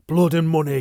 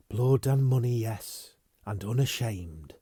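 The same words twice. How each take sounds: First: Loud high bitter shout; furious shout at his betrayer. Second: Slightly raised, then cold; defiant admission to her lover; cool defiance. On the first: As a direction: hurl the words at her. Furious quarrel. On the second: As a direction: throw it back unashamed. Defiant answer. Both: Acted.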